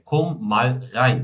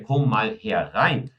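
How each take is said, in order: First: The last word is shortened to one syllable. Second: The last word is said in full, two syllables. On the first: "eu também posso dizer" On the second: "em vez de dizer"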